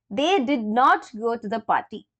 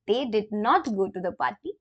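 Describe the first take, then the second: First: Said in the usual way. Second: "not" made prominent with a rise in "They did not go to the party"; stress on not. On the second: Shown as a demonstration. Teacher highlighting the negative "not" for learners. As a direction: bring out "not" to mark the negative. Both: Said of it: "It's a negative".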